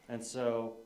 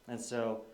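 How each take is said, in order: Both takes have the same delivery.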